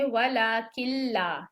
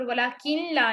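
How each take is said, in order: First: वलाकिल्ला with doubled ल, no noon sound; the right way, किल्ला merged without nasal; correct reading. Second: वलाकिल्ला with audible noon, kin-la; the incorrect way, noon sound kept in वलाकिल्ला; wrong reading. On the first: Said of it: "हम पढ़ेंगे वलाकिल्ला". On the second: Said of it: "वलाकिल्ला नहीं पढ़ेंगे". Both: Shown as a demonstration.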